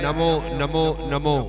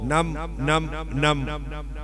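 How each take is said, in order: First: Each word ends with a full final o vowel. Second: Each word is clipped, losing its final vowel. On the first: The speaker calls it right. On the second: The speaker calls it wrong.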